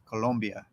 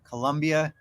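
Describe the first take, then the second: First: The second syllable sounds like 'lom'. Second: The second syllable sounds like 'lum'. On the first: It names the country. The speaker calls it right. "instead of Colombia" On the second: It is confused with the brand spelled with a U. The speaker calls it wrong. "when people say Colombia"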